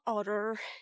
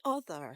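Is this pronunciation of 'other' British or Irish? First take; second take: Irish; British. First: Said with the Irish 't'-like sound. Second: Said with the British 'th' sound. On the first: The speaker calls it wrong. "not other" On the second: The speaker calls it right. "It should be other"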